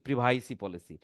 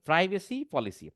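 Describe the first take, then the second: First: Privacy starts with 'pree' and has 'vai' after it. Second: Privacy starts with 'pry' and has 'vuh' after it. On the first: The speaker calls it wrong. "অনেকে কিন্তু বলে, শুনছি প্রিভাইসি policy" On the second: The speaker calls it right. "উচ্চারণ সঠিক করতে হবে"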